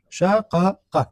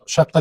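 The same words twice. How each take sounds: First: شقق in three separate syllables, sha-qa-qa; unmerged original form. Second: شقه as shaq-qa, one doubled qaf; merged form. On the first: Teacher shows students the root form, شقق pulled apart syllable by syllable. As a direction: say شقق with both qafs apart, each with its own short a. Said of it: "اگر بخوایم اصل از این را پیدا کنیم". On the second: Teacher shows the result of merging, شقه with a doubled q. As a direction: say شقه in two syllables, holding the double q. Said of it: "بعد ادغام شده". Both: Shown as a demonstration.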